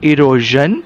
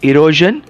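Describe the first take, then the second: Both takes have the same delivery.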